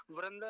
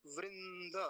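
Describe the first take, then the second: First: वृंद said as vranda, with ra; wrong vowel demo. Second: वृंद as vrin-da, drawn out and softer; correct vowel demo. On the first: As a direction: put ra in place of ri in वृंद. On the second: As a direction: hold the ri and nasal in वृंद, then da. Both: Shown as a demonstration. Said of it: "वृंद नहीं".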